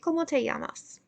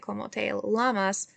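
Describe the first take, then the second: First: The double L sounds like an English Y. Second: The double L sounds like an English L. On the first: The speaker calls it right. "we're going to pronounce that like a Y" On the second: The speaker calls it wrong. "We're not going to say"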